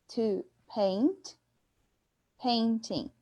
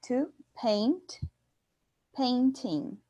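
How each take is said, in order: The two takes are said the same way.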